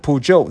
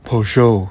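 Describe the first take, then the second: First: It is said with an American accent. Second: It is said with a French accent.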